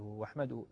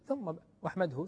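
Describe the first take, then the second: First: Said in the usual way. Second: ثم stressed and set apart before واحمده; stress on thumma. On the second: Shown as a demonstration. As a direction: lean on ثم, then a pause, then واحمده.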